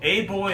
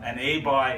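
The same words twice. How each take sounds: First: Put-on "A boy" as "ay boy"; "boy" with a rounded oy; boy, not buy. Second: "A buy" as "ay bye"; "A buy" ending in an eye sound; pronounced like buy. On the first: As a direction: say "boy" to rhyme with toy. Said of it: "pronounced like buy, not boy". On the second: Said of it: "it's pronounced like buy". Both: Shown as a demonstration.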